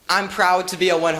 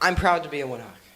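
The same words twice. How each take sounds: First: It is said loudly. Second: It is said quietly.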